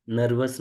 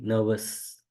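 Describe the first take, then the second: First: नर्वस with the R clearly sounded, nur-vus; नर्वस with a rolled R in the middle; wrong pronunciation with R. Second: नर्वस with the R dropped, like nuh-vus; नर्वस the right way, R silent. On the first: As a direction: say नर्वस pronouncing the R, the way not to. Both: Shown as a demonstration. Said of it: "इसमें आर silent रहेगा".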